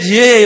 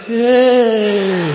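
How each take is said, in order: First: It is a loud, enthusiastic shout. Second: It is a flat, reluctant cheer.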